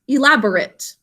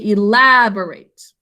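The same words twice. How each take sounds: First: The last syllable has a weak vowel sound. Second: The last syllable has a long A sound. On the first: The word is used as an adjective. "we pronounce it differently when it's an adjective" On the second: The word is used as a verb. "making A say its name with a silent final E"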